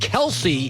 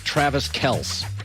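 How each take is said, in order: First: The surname is said as two syllables. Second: The surname is said as one syllable. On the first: The speaker calls it right. "Kelsey's got flavor to it" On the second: The speaker calls it wrong. "I'm not calling the greatest tight end in league history Travis Kelce"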